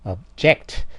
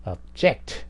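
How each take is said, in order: First: The stress is on the second syllable. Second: The stress is on the second syllable.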